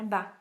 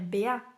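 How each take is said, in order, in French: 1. Les deux sons se mélangent en une seule syllabe. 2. Les deux noms de lettres se disent séparément. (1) "ça va faire" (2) "ça va pas faire"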